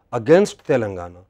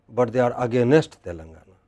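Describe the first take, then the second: First: "against" stressed. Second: "they" stressed. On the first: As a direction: lean on "against". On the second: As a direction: lean on "they" not "against". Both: Shown as a demonstration.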